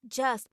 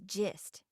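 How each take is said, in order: First: The vowel sounds like 'uh'. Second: The vowel sounds like 'ih'. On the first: This is the standard form. "just becomes" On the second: This is the local form. "becomes gist"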